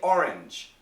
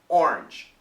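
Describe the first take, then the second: First: The word is said in two syllables. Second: The word is said in one syllable. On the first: "some Americans also say orange" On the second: "they say it in one syllable"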